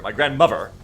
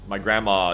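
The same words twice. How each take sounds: First: Louder "grandmother" said in full as a correction; "grandmother" stressed, self-correcting; corrected to grandmother. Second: Said in the usual way. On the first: Shown as a demonstration. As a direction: put weight on "grandmother" to fix the word. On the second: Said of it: "she would hate if I called her grandma".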